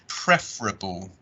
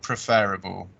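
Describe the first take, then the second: First: A middle part of the word is swallowed. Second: Every part of the word is fully pronounced. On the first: The speaker calls it right. "we kind of swallow a bit of this part of the word" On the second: The speaker calls it wrong. "not preferable"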